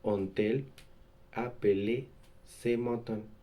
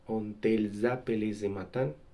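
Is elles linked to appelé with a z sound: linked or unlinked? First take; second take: unlinked; linked. First: Elles and appelé are said without a linking sound. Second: A z sound links elles to appelé. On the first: The speaker calls it right. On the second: The speaker calls it wrong.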